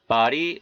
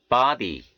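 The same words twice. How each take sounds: First: 'Body' with D as an R-like tap; American flapped D. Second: 'body' with a full hard D; unflapped D. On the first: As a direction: flap the D in 'Body'. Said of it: "연음 현상이 들어가서 이렇게". ('Body'의 D를 ㄹ처럼) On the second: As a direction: keep the D in 'body' distinct. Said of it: "이렇게 발음해 틀린 것은 아니". ('body'의 D를 또렷한 ㄷ로) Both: Shown as a demonstration.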